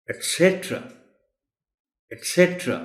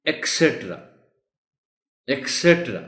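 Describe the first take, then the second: First: ایٹسیٹرا as "et-SET-ra"; higher stressed "SET" in ایٹسیٹرا; correct ایٹسیٹرا. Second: ایکسیٹرا as "ek-SET-ra"; mispronounced ایکسیٹرا. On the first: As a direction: clear "t", never "k", in the first syllable of ایٹسیٹرا. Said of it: "The correct word is". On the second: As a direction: put a wrong "k" sound into ایکسیٹرا. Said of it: "غلط بولا جا رہا ہے". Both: Shown as a demonstration.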